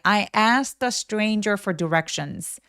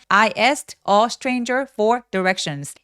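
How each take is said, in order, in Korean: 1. 이 문장은 한 호흡에 부드럽게 흘러갑니다. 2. 단어마다 따로따로, 숨차게 말합니다. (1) "이게 여러분 한 호흡으로 쭉 이어져야만 합니다" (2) "이렇게 단어 하나하나 얘기하면서 숨차게 얘기하지 마시고요"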